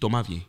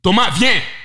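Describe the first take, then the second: First: It is said at a normal, quiet volume. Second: It is shouted loudly and forcefully.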